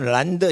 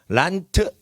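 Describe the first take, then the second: First: The word ends in a voiced 'd' sound. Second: The word ends in a voiceless 't' sound. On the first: It is harder to say. "란드 이러면 힘들어" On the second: It is the easier form it turns into. "란트 이렇게 돼버리는 거예요"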